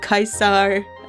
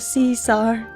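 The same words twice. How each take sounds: First: The name begins with a K sound. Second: The name begins with an S sound. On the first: "in Latin, the C is pronounced as a K" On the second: "pronounce it with an S"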